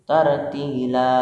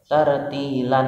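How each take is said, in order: First: The word ends on a long a vowel. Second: The word ends with an n sound. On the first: The speaker calls it right. "tartila sama" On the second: The speaker calls it wrong. "Tidak boleh tartilan lagi"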